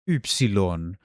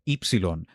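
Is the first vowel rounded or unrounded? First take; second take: rounded; unrounded. First: The first vowel is a rounded front vowel. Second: The first vowel is an unrounded 'ee' sound. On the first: This is the older pronunciation. "it used to be pronounced like upsilon" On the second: This is the later pronunciation. "ancient Greek lost that sound and it became epsilon"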